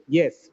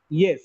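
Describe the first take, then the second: First: The pitch falls from high to low. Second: The same.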